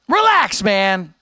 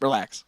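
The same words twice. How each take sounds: First: Exasperated high-pitched snap; exasperated outburst. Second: Said in the usual way. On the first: Real, not acted. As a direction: burst out high, fed up with the chat. Exasperated second take at chatter.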